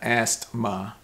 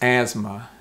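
First: A T sound is heard before the M. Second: No T sound is heard before the M. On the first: The speaker calls it wrong. "It's not asthma" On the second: The speaker calls it right. "It's asthma"

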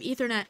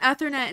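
First: It uses the standard pronunciation. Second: It uses a spelling-based pronunciation. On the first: The speaker calls it right. "instead of Ethernet" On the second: The speaker calls it wrong. "I said Ethernet"

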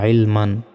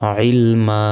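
First: The word ends in -an with a final n. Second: The word ends in a long a without n. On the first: "মিম আলিফ 2 জবর মান" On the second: "এখানে থামলে একটা জবরের উচ্চারণ হবে"

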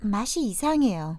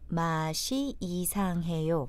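First: It is said at natural speed. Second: It is said slowly and carefully.

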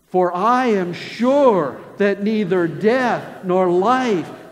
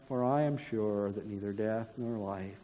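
First: It is read with confidence in the voice. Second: It is read without confidence in the voice. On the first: The speaker calls it right. "with confidence in your voice" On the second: The speaker calls it wrong. "I want you to read it not like"

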